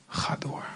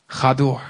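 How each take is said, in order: First: Whispered echo, breathy and soft; God's whispered nudge to keep going. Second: Firm, louder call to keep going; God's firm push to keep going; firm urging. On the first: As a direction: drop to a whisper to press it home. God urges: go on, repeated. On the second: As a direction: urge them on, firmly. God urges: go on. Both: Acted.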